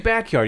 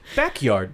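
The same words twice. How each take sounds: First: It is said smoothly as one word. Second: It is said as two separate words.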